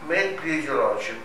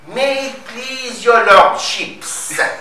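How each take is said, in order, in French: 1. Ça se dit avec un accent anglais naturel. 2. Ça se dit avec un fort accent français. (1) "Par exemple" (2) "Lui, il va dire"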